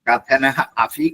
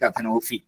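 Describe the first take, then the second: First: The two words are said separately. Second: The two words are fused into one.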